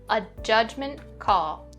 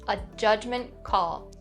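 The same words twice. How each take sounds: No difference in how they are said.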